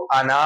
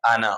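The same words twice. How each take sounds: First: आना with the final "naa" drawn out; आना as if the alif were sounded; wrong long reading. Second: आना said as "ana" with a short final na; आना finished quickly without stretching; correct short reading. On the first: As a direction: stretch the last vowel of आना. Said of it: "इसको आना नहीं पढ़ेंगे". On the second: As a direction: keep the end of आना brief, alif silent. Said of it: "ये है आना". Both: Shown as a demonstration.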